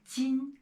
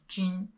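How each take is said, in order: First: The syllable is said with a flat tongue. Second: The syllable is said with a curled tongue. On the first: The speaker calls it right. "It is 今" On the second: The speaker calls it wrong. "It's not 今"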